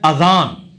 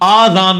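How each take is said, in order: First: The first vowel is short. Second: The first vowel is long. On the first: The speaker calls it right. "ये लफ्ज है अजान" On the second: The speaker calls it wrong. "आजान नहीं है"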